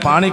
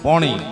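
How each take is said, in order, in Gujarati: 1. પહેલો સ્વર ખુલ્લો 'aa' અવાજ છે. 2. પહેલો સ્વર ગોળ 'o' અવાજ છે. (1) "આપણે પીએ અને પાણી કે" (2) "ઉત્તર ગુજરાતમાં કે અને પોણી"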